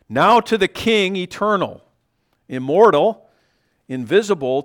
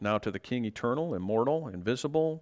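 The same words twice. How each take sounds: First: It is read with lively, excited expression. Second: It is read flatly, with little expression.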